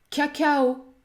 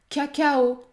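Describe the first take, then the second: Both takes have the same delivery.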